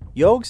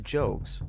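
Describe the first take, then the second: First: The name begins with a 'y' sound. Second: The name begins with a 'j' sound. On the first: "I'm pretending like he's German or something" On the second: "It's J-O-Q-U-E-S"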